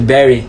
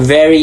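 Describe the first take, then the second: First: The word begins with a B sound. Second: The word begins with a V sound. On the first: "turning very into berry" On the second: "pronounce V as B"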